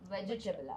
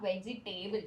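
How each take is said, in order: First: The third syllable sounds like 'ta'. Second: The third syllable sounds like 'tay'. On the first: The speaker calls it right. "ടേ അല്ല ട" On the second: The speaker calls it wrong. "It's not വെജിറ്റേബിൾ"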